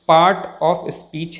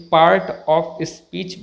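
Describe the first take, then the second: First: Part of speech with "paat", slow; silent r. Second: Part of speech with an r before t; sounded r. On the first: Teacher gives correct pronunciation, r silent. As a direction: slowly say part without the r. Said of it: "सही pronunciation". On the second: Teacher imitates many people's mistake, r sounded. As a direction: pronounce the r in part. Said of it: "जो कि गलत है". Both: Shown as a demonstration.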